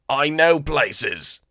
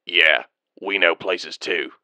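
First: High, very slow eager alien; bargaining alien, drawn out; Weequay voice. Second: Slow, low, deadpan clone sergeant; unimpressed soldier mocking back; dry retort. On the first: Acted. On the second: Clone sergeant answering dryly.

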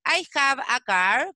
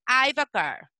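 First: Said in the usual way. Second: I've a car, with I have squeezed into one syllable I've; contracted I've. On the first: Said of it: "En vez de decir". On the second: Shown as a demonstration. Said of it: "podemos decir". ("I've" contraído en una sola sílaba)

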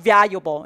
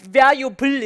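First: VALUABLE ending in "-bo", L melted away; "valuable" as vya-yu-bo; correct ending. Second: VALUABLE with a full "-bul" at the end; heavy final L on "valuable"; wrong ending. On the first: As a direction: let the last L of "valuable" soften to a vowel. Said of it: "이렇게 발음하시는 거예요". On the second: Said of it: "이렇게 발음하지 않죠?". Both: Shown as a demonstration.

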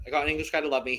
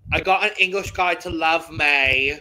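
First: Said in the usual way. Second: Louder, higher mock British accent; hammed-up attempt at a British accent; bad British accent. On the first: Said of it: "no, I'm not gonna do it". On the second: Shown as a demonstration. Host reading song lyrics to offend a co-host, mock British accent. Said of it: "in my worst possible British accent".

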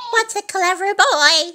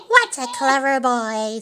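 First: High, loud and tickled; delighted praise. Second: Doting, lightly voiced old owner; fond praise. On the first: Old Mother Hubbard cheering her dog's cartwheels, high delight. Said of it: "Old Mother Hubbard laughed". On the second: Old Mother Hubbard to her beloved dog, fond praise. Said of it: "said Old Mother Hubbard". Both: A narrator's reading.

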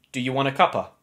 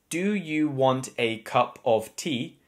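First: "cup of tea" shortened to a quick "cuppa"; everyday contracted "cuppa"; shortened casual form. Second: Slow, fully spelled-out "cup of tea"; unhurried, each word of "cup of tea" separate; full careful form. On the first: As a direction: run it together casually, ending on "cuppa". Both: Shown as a demonstration. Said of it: "We shorten it to cuppa".

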